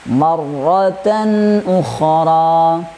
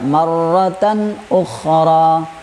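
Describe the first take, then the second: First: The n sound flows on before continuing. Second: The n sound is cut short abruptly. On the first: The speaker calls it right. "tan harus mengalirnya" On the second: The speaker calls it wrong. "jadi tidak marratan ukhra"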